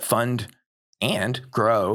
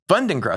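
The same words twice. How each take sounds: First: The word 'and' is said fully and separately. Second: The word 'and' is shrunk to an n sound. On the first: The speaker calls it wrong. "stop saying it like that" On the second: The speaker calls it right. "Think of it as an N"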